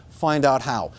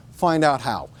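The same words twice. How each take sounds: The two takes are said the same way.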